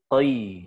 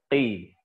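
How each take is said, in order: First: The vowel glides from o to i. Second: The vowel is a plain i sound. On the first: The speaker calls it wrong. "kasroh tidak diucapkan qoi" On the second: The speaker calls it right. "Dia saja ko, qi"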